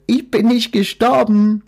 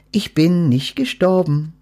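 First: High, loud triumphant quack; quacked delightedly. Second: Lightly raised private thought; thought to herself. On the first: Duck proudly announcing to Death she is alive. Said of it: "quakte sie hochzufrieden". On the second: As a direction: think it to yourself, surprised. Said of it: "dachte sie bei sich". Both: A narrator's reading.

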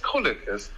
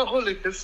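First: Krullekis said with a K before the R; Krullekis, a clear K sound then R-u-l-l-e-k-i-s. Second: Rullekis said starting with a plain R sound; Rullekis without K. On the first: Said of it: "so als würde das Rolle bedeuten". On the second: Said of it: "du sagst immer Rullekis". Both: Shown as a demonstration.

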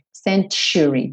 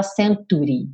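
First: "century" said with tch: sen-tchu-ri; tch sound. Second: Said in the usual way. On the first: Shown as a demonstration. Teacher shows the right century. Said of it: "tem um tch". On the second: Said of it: "você não fala century".

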